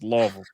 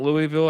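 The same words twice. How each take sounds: First: The name is mumbled, syllables run together. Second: The name is said clearly, each syllable distinct. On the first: The speaker calls it right. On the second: The speaker calls it wrong.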